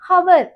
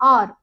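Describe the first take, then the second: First: The word begins with a clear h sound. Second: The word begins directly with a vowel sound. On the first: The speaker calls it wrong. "இத நிறைய பேர் ஹவர் அப்படின்னு சொல்றோம். ஹவர் கிடையாது" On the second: The speaker calls it right. "இதுல வந்து H silent"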